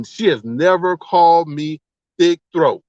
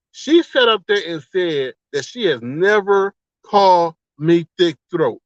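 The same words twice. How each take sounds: First: Slow, emphatic delivery of she has never called me thick throat. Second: Slow, deliberate, each word pressed; slow emphatic repeat. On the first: To the chat, repeating her claim slowly and pointedly. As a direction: lean on every word, slowly. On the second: Retelling her lie to viewers, slow and emphatic. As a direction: spell it out for the chat. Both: Shown as a demonstration. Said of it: "Let me say that one more time".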